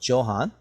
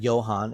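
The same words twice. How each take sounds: First: The name begins with a J sound. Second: The name begins with a Y sound. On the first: "instead of Johann" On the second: "J uh, sounds like a Y, so that's why I said Johann"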